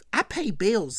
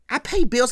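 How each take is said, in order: First: Said in the usual way. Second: "I pay bills" as a forceful assertion, PAY stressed; insistent repeat. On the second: Retold or imitated. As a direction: hit PAY hard in "I pay bills". Johnny repeats it more forcefully.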